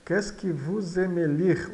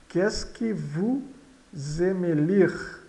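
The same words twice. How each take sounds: First: Said in the usual way. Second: Slow, broken after vous, rising at the end; slow model reading. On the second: Shown as a demonstration. Teacher modelling a French question for learners, slow and careful. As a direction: read it slowly in two parts for learners.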